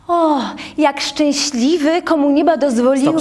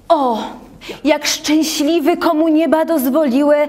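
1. Mówi się to prosto, bez dramatycznej siły. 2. Mówi się to mocno i dramatycznie, z przepony.

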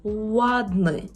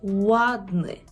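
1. Слово починається з округленого звука w. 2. Слово починається з округленого звука w.

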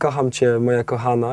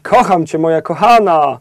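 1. Mówi się to płasko, z niewielką energią. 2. Mówi się to żywo, z wyrazistą energią. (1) "i to po prostu zostaje" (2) "tylko musisz powiedzieć"

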